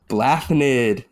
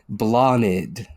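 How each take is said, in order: First: The 'th' sound is pronounced. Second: The 'th' sound is silent. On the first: The speaker calls it wrong. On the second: The speaker calls it right.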